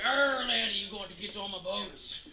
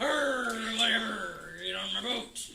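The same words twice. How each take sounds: First: Bad pirate accent. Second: Scruffy Beard. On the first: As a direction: do a not very good pirate accent. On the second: Acted. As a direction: wave off criticism in a bad pirate accent. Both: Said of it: "not a very good pirate accent".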